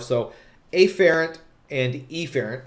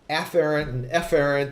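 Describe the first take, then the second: First: The two words are said slowly with distinct vowels. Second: The two words are said fast and sound alike. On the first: The two terms are kept clearly apart. "I'm intentionally mispronouncing those words" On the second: The two terms become hard to tell apart. "if I speak very fast"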